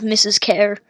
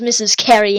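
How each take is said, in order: First: Said in the usual way. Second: "Carey" with a second syllable, an ee ending; misread name. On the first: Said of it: "instead of Missus Kerr". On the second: Shown as a demonstration. Reader explaining the slip, two-syllable "Carey". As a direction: say "Carey" so it rhymes with fairy. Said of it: "I read it as Missus Carey".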